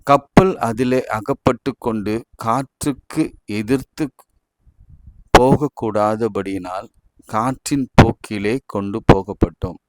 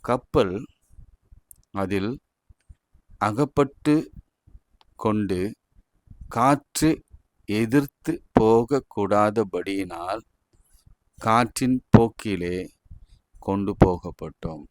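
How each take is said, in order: First: It is read smoothly without stopping between phrases. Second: It is read with pauses between the phrases.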